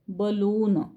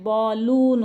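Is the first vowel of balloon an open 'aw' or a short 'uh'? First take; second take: uh; aw. First: The first vowel is a short 'uh' sound. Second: The first vowel is an open 'aw' sound. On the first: The speaker calls it right. "याला असंच वाचावं लागेल" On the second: The speaker calls it wrong. "असं नाही"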